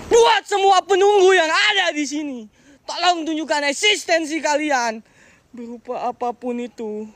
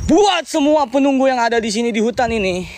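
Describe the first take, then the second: First: Slow, high, ceremonial summons to spirits; solemn invocation. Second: Said in the usual way. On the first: Real, not acted. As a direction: call out to unseen spirits.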